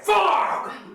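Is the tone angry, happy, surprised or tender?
angry. It is said in an angry tone.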